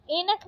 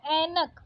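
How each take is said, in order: First: ऐनक said "e-nak", closed e; wrong vowel. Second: Said in the usual way. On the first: Shown as a demonstration. Teacher rejecting a spelling, ऐनक with plain e. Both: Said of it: "ऐनक नहीं होता".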